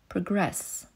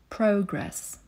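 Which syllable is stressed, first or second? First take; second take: second; first. First: The stress is on the second syllable. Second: The stress is on the first syllable. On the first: It is used as a verb. "Robić postępy" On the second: It is used as a noun. "Postęp"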